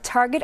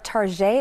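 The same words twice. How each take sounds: First: The name is said with its ordinary pronunciation. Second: The name is said with a playful, altered pronunciation.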